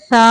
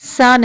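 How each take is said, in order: First: The s sound is soft without whistling. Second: The s sound is sharp and whistling. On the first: The speaker calls it right. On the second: The speaker calls it wrong.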